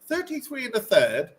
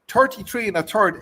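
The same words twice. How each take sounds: First: It is said in a careful non-Irish accent. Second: It is said in a natural Irish accent.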